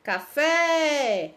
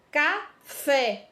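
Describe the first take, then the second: First: CaFÉÉÉ, FÉ held very long; stressed final syllable. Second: Café said slowly in two parts, ca, FÉ; deliberate café, pause before a stressed FÉ; pronouncing the word. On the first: Teacher calling café to show its last syllable, stretched FÉ. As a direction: call out café with a long, drawn-out FÉ. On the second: Teacher showing the stressed syllable of café, syllables set apart. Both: Shown as a demonstration. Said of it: "Nós falamos com mais intensidade".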